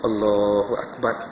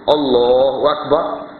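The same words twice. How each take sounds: First: It is said quietly, barely above a murmur. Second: It is said loudly enough to carry far. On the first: Only the one saying it can hear it. The speaker calls it right. "Telinga dia sendiri" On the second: People far away can hear it. The speaker calls it wrong. "Tok Imam pun dengar"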